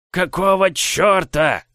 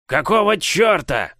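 First: Slow, high squeaky giant voice; a hulking giant who squeaks. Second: Slow, high squeaky giant bark. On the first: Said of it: "своим странным песклявым голосом". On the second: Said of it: "рявкнул он". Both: Acted.

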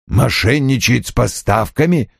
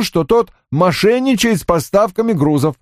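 First: Said in the usual way. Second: High, matter-of-fact accusation; subordinate reporting. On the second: Acted. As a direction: report it in a raised-pitch voice. Johnny's report, then echoed as question. (высоким голосом докладчика)

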